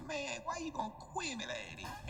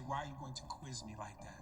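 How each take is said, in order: First: Higher, garbled Southern mumble. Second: Low, fully articulated words; clear translation. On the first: Retold or imitated. Mocking what he said instead, slurred mumble. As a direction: slur it until the words are lost. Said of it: "But he said". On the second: Shown as a demonstration. Explaining what he was trying to say, clearly articulated. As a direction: pronounce every word distinctly, pitched down. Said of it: "He was trying to say".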